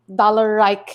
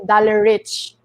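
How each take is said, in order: First: The last syllable has a long 'eye' vowel. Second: The last syllable has a short 'i' vowel. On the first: This is how people in Europe say the name. "they pronounce my name like dollar Reich in the in Europe" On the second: This is how the name is said in the Philippines. "but me in the Philippines is actually dollar rich"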